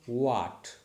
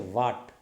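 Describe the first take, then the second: First: It begins with a w sound, lips rounded. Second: It begins with a v sound, lip on teeth. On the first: The speaker calls it right. "Your lips should be rounded and say what" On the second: The speaker calls it wrong. "people used to say what. No, it is not a va"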